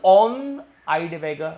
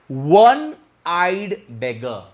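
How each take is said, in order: First: The first word begins with an O vowel. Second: The first word begins with a W sound. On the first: The speaker calls it wrong. "We don't say like this" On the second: The speaker calls it right. "it will be pronounced like W"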